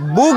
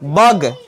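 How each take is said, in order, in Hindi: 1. स्वर एक oo जैसी ध्वनि है। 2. स्वर एक छोटी uh ध्वनि है। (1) "बुग नहीं"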